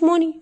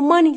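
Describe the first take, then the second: First: The first vowel sounds like 'oh'. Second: The first vowel sounds like 'ah'. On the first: The speaker calls it wrong. "ما تقوليش موني" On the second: The speaker calls it right. "احنا بنقولها ماني"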